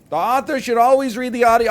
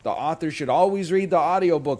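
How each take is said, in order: First: It is said noticeably louder. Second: It is said at normal volume.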